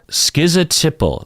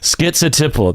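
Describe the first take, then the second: First: The first syllable is said without a t sound. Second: The first syllable is said with a t sound. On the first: "so no T in there" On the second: "There's a T, to me, there's a T in there"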